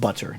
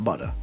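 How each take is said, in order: First: The word is said in a standard accent. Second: The word is said in a Boston accent. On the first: The speaker calls it right. "it's pronounced butter" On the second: The speaker calls it wrong. "not butter, alright? You're wrong. All of Boston is wrong"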